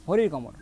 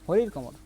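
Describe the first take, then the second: No difference in how they are said.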